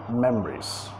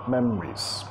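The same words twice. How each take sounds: No difference in how they are said.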